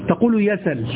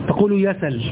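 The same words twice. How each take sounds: The two takes are said the same way.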